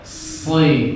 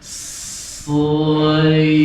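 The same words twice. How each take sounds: First: The syllable is said quickly. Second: The syllable is said slowly and drawn out. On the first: "Tapi cepat" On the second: "kalau saya slow motion nih"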